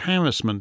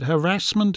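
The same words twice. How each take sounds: First: The word is said the British way. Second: The word is said the American way. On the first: "I said harassment" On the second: "Is it harassment in American?"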